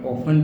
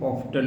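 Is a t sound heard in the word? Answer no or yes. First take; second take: no; yes. First: The word is said without a t sound. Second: The word is said with a t sound. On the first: "ઓફન બી બોલી શકો" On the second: "ઓફટન બી બોલી શકો"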